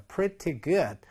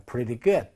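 First: "Pretty" with a crisp t sound in the middle; clear T. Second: "Pretty" with the t softened to a tap; flapped T. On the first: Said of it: "T 사운드가 약해지면". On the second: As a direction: say "Pretty" like "preddy". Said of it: "리을로 발음 나기도 합니다". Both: Shown as a demonstration.

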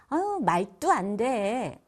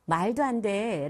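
First: "말도 안 돼" slowly with hard tensed 또 and 돼; 된소리로 느리게 "말도 안 돼"; tensed consonants. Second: Said in the usual way. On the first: Shown as a demonstration. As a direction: drag out "어, 말도 안 돼" with forced 된소리. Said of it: "이렇게 세게 된소리를 하는 경우가 많아요". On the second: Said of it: "라는 말을 할 때".

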